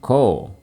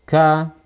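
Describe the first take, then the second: First: The syllable sounds thick and heavy. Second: The syllable sounds thin and light. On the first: The speaker calls it wrong. "jangan ko" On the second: The speaker calls it right. "suaranya terdengar tipis"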